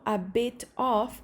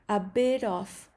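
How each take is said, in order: First: It is said slowly with a clear t sound. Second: It is said faster with the t flapped. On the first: "cuando lo digo lento, a bit of es correcto" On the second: "decirlo ya un poco más rápido, entonces la T... se convierte en una R al revés"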